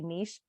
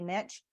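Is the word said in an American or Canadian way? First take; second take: Canadian; American. First: It is said the Canadian way. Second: It is said the American way.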